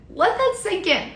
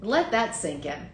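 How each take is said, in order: First: "that" hit higher, pitched up; stress on that. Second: Said in the usual way. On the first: Shown as a demonstration. Host repeats to Giants fans, stressing "that" higher. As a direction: lean hard on "that" in "Let that sink in".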